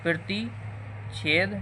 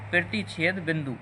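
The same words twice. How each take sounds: First: प्रतिच्छेद said very slowly, syllable by syllable; slow spelled term. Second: Said in the usual way. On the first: Shown as a demonstration. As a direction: draw out प्रतिच्छेद for the class. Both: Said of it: "इसी को बोलेंगे प्रतिच्छेद बिंदु".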